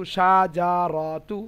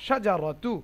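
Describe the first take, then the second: First: সাজারতু stretched slowly with a rise; a slow, wrong example; wrong drawn-out way. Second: Said in the usual way. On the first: Shown as a demonstration. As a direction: drags সাজারতু out too long. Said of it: "এরকম না". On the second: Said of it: "এরকম না, সাজারতু".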